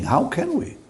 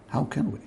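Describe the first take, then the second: First: High, pleading rhetorical question; how can we, rising high; emphatic question. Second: Quiet repeated question; how can we, dropped to a hush; soft echo. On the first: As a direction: throw the question up to the congregation. Preacher repeats rhetorical question. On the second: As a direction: let the question fall away softly. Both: Real, not acted.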